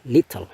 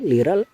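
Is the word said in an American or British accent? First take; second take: British; American. First: It is said in a British accent. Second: It is said in an American accent. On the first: "lebih ke gaya British, so it is more on British English" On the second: "Ini more on American English"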